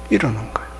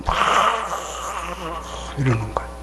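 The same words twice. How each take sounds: First: Low grumbling menace in a scowling voice; Cain's scowling face. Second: Cain's scowling face. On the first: Preacher showing the congregation Cain's angry face, low and grim. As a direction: growl it like angry Cain. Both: Shown as a demonstration. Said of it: "그 가인 얼굴이 돼갖고".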